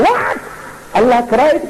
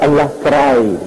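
First: High-pitched, astonished echo; mock disbelief, pitched right up; incredulous question. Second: Said in the usual way. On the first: Reverend reacts to the Maulana's answer, incredulous. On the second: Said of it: "So the Maulana began. He said".

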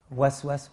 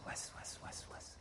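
First: Said in the usual way. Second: "west west" repeated in a bare whisper. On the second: Shown as a demonstration. Preacher shows the sound of waswas, whispering "west west". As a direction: whisper "west west" like a hissing rustle. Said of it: "when I'm whispering, that's my west west".

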